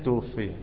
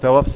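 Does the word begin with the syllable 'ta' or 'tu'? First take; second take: tu; ta. First: The word begins with tu and ends in iya. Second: The word begins with ta and ends in long a. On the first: The deceased was taken by someone else. The speaker calls it right. "الصحيح توفي" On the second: The deceased is the one who did the taking. The speaker calls it wrong. "وقول توفى. هو طبعا ما توفاش"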